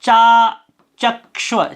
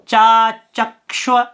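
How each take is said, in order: The two takes are said the same way.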